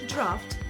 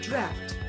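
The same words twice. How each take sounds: First: The vowel rhymes with laughter, British style. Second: The vowel is the American short a. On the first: "British draft" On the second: "American draft"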